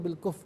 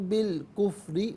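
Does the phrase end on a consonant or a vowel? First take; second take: consonant; vowel. First: The last word ends on a consonant. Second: The last word ends with a short vowel. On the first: The recitation stops at this word. "वक्फ करेंगे तो बिल कुफ पढ़ेंगे" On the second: The recitation continues without stopping. "यूं पढ़ेंगे"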